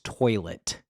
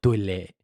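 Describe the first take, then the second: First: The T sound is hard, English style. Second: The T sound is softened, French style. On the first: This is the usual English way. "It's toilet" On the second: This is the original French way. "we don't call it toilet. You know, like we don't soften the T"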